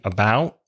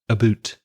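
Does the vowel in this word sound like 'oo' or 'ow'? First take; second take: ow; oo. First: The vowel is a gliding 'ow' sound. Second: The vowel is a rounded 'oo' sound. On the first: The speaker is American. "An American English speaker might say" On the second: The speaker is Canadian. "a Canadian English speaker would say aboot"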